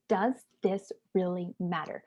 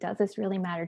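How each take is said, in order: First: The question is asked in a sincere tone. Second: The question is asked in a dismissive tone.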